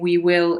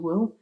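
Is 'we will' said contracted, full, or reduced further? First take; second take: full; reduced. First: Both words are said fully and separately. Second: The 'we' sound almost disappears, leaving 'will'. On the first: "instead of saying we will" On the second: "in fast speech it's reduced even further to will"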